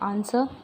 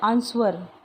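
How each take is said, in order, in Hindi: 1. w की ध्वनि मौन रहती है। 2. शब्द में w की ध्वनि उच्चारित होती है। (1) "तो रियल क्या आएगा" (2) "बहुत सारे हैं जो बोलते हैं आंसर, बट वो आंसर नहीं होता है।"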